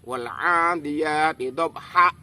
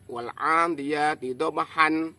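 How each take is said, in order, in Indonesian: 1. Vokal terakhir dipotong secara tiba-tiba. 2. Kata terakhir diakhiri dengan bunyi n tambahan. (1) "kita hentakkan" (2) "Bacaan yang salah"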